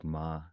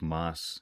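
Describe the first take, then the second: First: The word ends without any S sound. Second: The word ends with a clear S sound. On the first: This is how it is said in Puerto Rico. "in Puerto Rico, they don't pronounce the S" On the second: This is the usual Spanish form. "there's like an S at the lot, a lot at the end of a lot of uh, Spanish words"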